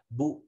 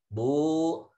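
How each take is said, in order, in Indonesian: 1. Vokalnya pendek, satu ketukan. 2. Vokalnya panjang, dua ketukan. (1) "Ketika harokat pendek" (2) "kalau panjang dia di dua ketuk"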